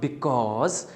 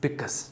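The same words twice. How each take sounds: First: The second syllable is said fully as spelled. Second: The second syllable is reduced, sounding like 'cuz'. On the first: The speaker calls it wrong. "it's not because" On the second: The speaker calls it right. "as if like written like c u z"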